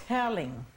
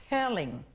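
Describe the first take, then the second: The two takes are said the same way.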